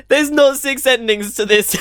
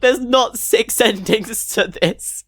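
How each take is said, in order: First: NOT punched higher and louder; incredulous, leaning hard on not; stressed disbelief. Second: Laughing through the words in disbelief; real laughing disbelief. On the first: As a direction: hit the word not, incredulous. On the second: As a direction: laugh it out, can't believe it. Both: Real, not acted. Disbelief at ending count.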